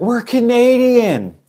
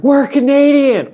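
First: High, drawn-out shout; stretched, pitched-up yell; retold shout. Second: Very high, loud, stretched yell; louder retold shout. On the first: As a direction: call out to the sailors on the ship. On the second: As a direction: bellow it at the ship to get let on board. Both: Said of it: "we were shouting at them".

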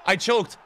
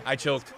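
First: Raised, punchy outburst; exasperated confession. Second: Said in the usual way. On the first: Real, not acted. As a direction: blurt out your own failure. Admits choking after missed chance.

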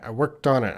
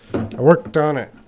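First: Said in the usual way. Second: Worked punched loud; worked said loudest, falling at the end; stress on worked. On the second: Shown as a demonstration. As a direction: hit the word worked hard.

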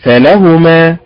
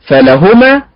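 First: فلهما with the stress on the lam vowel. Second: Deliberately faulty stress on فلهما; wrong first-form stress. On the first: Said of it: "فلهما هكذا". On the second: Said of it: "فسد المعنى". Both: Shown as a demonstration.

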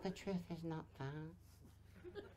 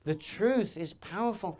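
First: Very soft, slow and feeble; feeble low volume. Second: Said in the usual way. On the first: Shown as a demonstration. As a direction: mimic a voice with no power. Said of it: "if you're talking like that".

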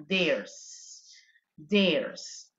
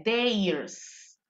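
First: Theirs said low with a clear E sound; right pronunciation. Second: Theirs with a drawn-out S; learners' wrong theirs; wrong pronunciation. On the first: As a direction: model Theirs low and clipped. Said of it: "Se dice con E nada más". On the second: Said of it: "No se dice theirs". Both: Shown as a demonstration.

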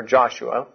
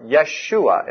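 First: "Joshua" opened with an English J sound; J pronunciation. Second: "Yeshua" opened with a Y sound; Y pronunciation. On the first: Preacher showing the first-letter options, "Joshua" with a J. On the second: Preacher showing the first-letter options, "Yeshua" with a Y. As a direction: say "Yeshua" as yeh-SHOO-uh, Y first. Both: Shown as a demonstration. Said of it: "depending on how you pronounce the first letter".

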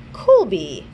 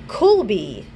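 First: Colby repeated clearly, falling; Colby repeated for the listener; repeated pronunciation. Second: Colby said slowly, falling tune; careful pronunciation. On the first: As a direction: say Colby once more. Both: Shown as a demonstration. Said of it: "is it Calbi?".

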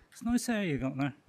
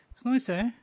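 First: Said in the usual way. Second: Nice said high and loud; high, loud compliment. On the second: Acted. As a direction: squeal it out brightly. Repeats compliment louder and higher.

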